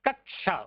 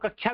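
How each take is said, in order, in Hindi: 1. बीच का संयुक्ताक्षर पूरा और ध्यान से बोला जाता है। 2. बीच का संयुक्ताक्षर सरल तरीके से बोला जाता है। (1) "लेकिन कक्षा उच्चारण है" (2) "कई लोग कक्षा भी बोलते हैं"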